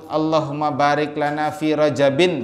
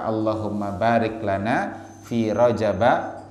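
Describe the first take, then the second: First: The word rajab ends with a nasal -in. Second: The word rajab ends with a plain -a.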